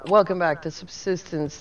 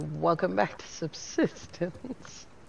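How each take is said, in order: First: It is said in his normal voice. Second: It is said in a put-on voice.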